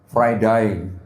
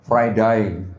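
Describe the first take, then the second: First: It is said in an Australian accent. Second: It is said in an Australian accent.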